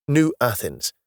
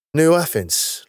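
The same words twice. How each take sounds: First: Said in the usual way. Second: Higher, rising surprise on New Athens; surprised echo. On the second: Acted. Carter echoing the city name back to Denham, surprised. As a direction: repeat New Athens as a startled question.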